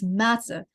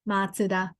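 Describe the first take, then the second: First: It has a z sound and two syllables. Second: It has a ts sound and flat pitch. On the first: The speaker calls it wrong. "people in Western people pronounce Mazda" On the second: The speaker calls it right. "the correct pronunciation is ... like a more flat Matsuda"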